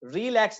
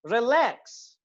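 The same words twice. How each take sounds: First: relax wrongly said "REE-lax", first vowel long; long first syllable. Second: relax as quick "ri" plus long, stressed "LAAX"; short first syllable. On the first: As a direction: stretch the opening of relax into a stressed "REE". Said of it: "relax नहीं कर रहे". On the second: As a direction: clip "रि" and hold "lakhs" in relax. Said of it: "री को हम short कर रहे हैं". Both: Shown as a demonstration.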